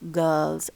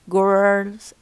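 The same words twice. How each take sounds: First: The R after the vowel is silent. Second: The R after the vowel is pronounced. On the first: "instead of" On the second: "said with an R"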